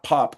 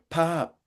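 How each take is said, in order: First: It is said in a plain Californian accent. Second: It is said in a Midwestern accent. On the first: The speaker calls it wrong. "it's not pop" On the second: The speaker calls it right. "I can tell it's a Midwestern accent"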